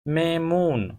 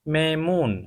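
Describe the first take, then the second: Both takes have the same delivery.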